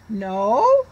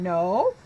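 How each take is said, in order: First: No? rising, louder, as a question; question tune. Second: Said in the usual way. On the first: Shown as a demonstration. Teacher shows children a question mark, rising tune. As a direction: ask it: No?. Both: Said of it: "make it sound like a question".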